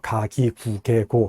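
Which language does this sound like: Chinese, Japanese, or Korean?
Korean. The syllables are said with a Korean-like accent. "하면은 한국어 같고요"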